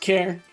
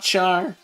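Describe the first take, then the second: First: It rhymes with air, starting with a k sound. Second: It starts with a ch sound, rhyming with car. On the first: The speaker calls it right. "It's pronounced care" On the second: The speaker calls it wrong. "not char"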